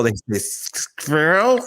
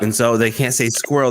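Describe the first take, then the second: First: "squirrel" with a German "skwerl", the r rolled, drawn out. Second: Said in the usual way. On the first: Retold or imitated. Showing how German spies said "squirrel", in a German accent. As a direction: say "squirrel" the way a German spy would. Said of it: "Germans can't say the word squirrel".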